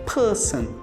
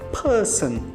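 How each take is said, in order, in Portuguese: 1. O r depois da vogal é silencioso. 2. O r depois da vogal é silencioso.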